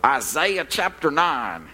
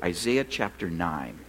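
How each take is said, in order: First: "Isaiah chapter nine" slowly, Isaiah said eye-ZYE-uh; mock-formal "Isaiah chapter nine" with eye-ZYE-uh; professor's pronunciation. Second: Said in the usual way. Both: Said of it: "as my old Old Testament professor used to call it".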